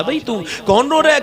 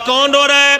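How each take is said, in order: First: Said in the usual way. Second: Raised voice hailing someone inside; calling out. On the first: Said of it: "آپ نے پوچھا". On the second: Acted. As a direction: call through a closed door. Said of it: "دروازے پہ آواز دی".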